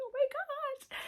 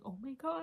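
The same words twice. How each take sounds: First: Much higher, excited squeal; squealing giddy. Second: Giddy gasp. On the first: Fan squealing at the movie, high giddy squeal. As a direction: squeal like a fangirl over the actor. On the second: Giddy while watching movie. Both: Retold or imitated.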